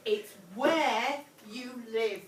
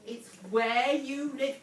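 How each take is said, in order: First: Slow, loud, "where" drawn out; repeated emphatically. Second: Slow and loud, leaning on "where"; stress on where. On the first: Teacher repeating the answer to the class, slow and firm. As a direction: say "where" long and firm, slowly. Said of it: "repeats answer for class". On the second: Teacher correcting a pupil, stressing where slowly. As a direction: put weight on "where" and go slowly. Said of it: "teacher stresses the answer". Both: Shown as a demonstration.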